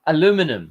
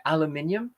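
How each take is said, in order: First: "Aluminum" said uh-LOO-min-um; four syllables, loud stress on LOO in "Aluminum"; American pronunciation. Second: "aluminium" said al-yoo-MIN-ee-um; five syllables, stress on MIN in "aluminium"; British pronunciation. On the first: Streamer finally getting the American word, "Aluminum" stressed on LOO. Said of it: "I think the Americans say aluminum". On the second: Streamer comparing both versions of a word, British "aluminium" stressed on MIN. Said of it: "two different ways of saying things". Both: Shown as a demonstration.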